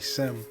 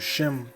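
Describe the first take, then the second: First: The name begins with an 's' sound. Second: The name begins with a 'sh' sound. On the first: The speaker calls it wrong. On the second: The speaker calls it right.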